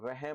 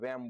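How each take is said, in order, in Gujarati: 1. વચ્ચેનો હ નો અવાજ બોલાય છે. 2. વચ્ચેનો હ નો અવાજ બોલાતો નથી. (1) "વહેમ નહીં બોલીએ" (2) "વેમ બોલશું"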